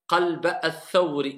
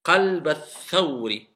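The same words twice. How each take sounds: First: "qalba al-thawri" with the final a of "qalba" held long before "al-thawri"; wrong long vowel. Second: "Qalba al-thawri" with a short a, gliding straight into "al-thawri"; correct liaison. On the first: Teacher showing students the wrong long vowel. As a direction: stretch the a of "qalba" as a mistake. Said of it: "Non, qalba al-thawri". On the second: Teacher modelling the correct short vowel for students. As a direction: run "Qalba" into "al-thawri" without lengthening. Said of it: "C'est pour alléger". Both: Shown as a demonstration.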